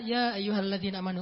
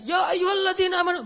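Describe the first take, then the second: First: Sad recitation. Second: High, loud declaiming recitation; shouted recitation. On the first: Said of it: "Beda itu, beda intonasi". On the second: Preacher showing the wrong way, loud and high. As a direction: belt the verse out like a fiery preacher. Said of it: "Makanya bacanya jangan". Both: Shown as a demonstration.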